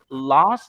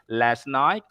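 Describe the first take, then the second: First: The vowel in last sounds like in car. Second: The vowel in last sounds like in cat. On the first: "but British said last" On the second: "American said last night"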